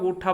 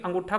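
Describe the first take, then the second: First: The word drops its opening an syllable. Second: The word keeps its opening an syllable. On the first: This is the Haryanvi dialect form. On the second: This is the standard form.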